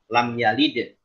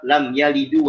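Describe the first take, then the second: First: The last word ends on a bare consonant. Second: The last word ends with an added u vowel. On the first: The speaker calls it right. "dengan sukun" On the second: The speaker calls it wrong. "sudah termasuk kelahan jal karena merubah harokat"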